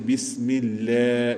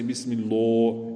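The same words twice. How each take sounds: First: The L sound is thin and light. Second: The L sound is heavy and full. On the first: The speaker calls it right. "then we make it thin. So we say lillah. That's why we say bismillah" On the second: The speaker calls it wrong. "We don't say bismillah. Incorrect"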